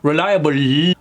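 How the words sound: The final L is strong and muscled. The speaker calls it wrong. "particularly Indian accents, has a tendency of really muscling those L's"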